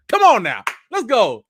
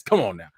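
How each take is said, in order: First: Loud higher Come on now; hyped come on now. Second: Said in the usual way. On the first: Real, not acted. Hyping up viewers in chat.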